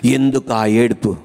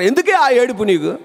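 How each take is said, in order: First: Said in the usual way. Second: High-pitched imitation of a parent; mock parental scolding, pitched up. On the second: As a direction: ask it like an exasperated parent. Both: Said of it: "అమ్మా నాన్నలు ఉంటారు".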